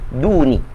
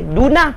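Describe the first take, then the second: First: The word ends with an i vowel. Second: The word ends with an a vowel. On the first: The word follows a preposition. "maka tuan-tuan kena baca duni" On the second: The word acts as the object. "Baris atas. Maka waktu itu kita akan baca duna"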